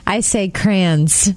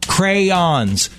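First: Crayons squeezed to one syllable, cranz. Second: Crayons said in two clear syllables, cray-ons; correct crayons. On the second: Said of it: "Go ahead and say the word". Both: Shown as a demonstration.

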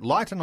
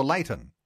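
First: "Leighton" pronounced LIGHT-un; "Leighton" with a long i sound first; first syllable like "light". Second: "Leighton" pronounced LAY-tun; "Leighton" with a long a sound first; first syllable like "lay". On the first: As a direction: open "Leighton" with the word light. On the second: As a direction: open "Leighton" with the word lay. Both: Shown as a demonstration. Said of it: "is it Leighton or Leighton".

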